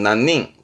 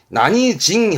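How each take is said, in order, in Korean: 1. nannin으로 발음하며, nin으로 끝납니다. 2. nanijin으로 발음하며, jin으로 끝납니다. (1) "사람을 셀 때 한 명, 두 명에 쓰는 거지" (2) "난이징 하게 되면 징 발음이니까"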